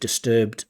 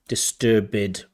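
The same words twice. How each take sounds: First: The ending is a plain 'd' sound. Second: The ending is an extra 'id' syllable. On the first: The speaker calls it right. "instead of" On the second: The speaker calls it wrong. "overusing id"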